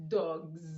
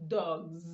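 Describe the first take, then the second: Both takes have the same delivery.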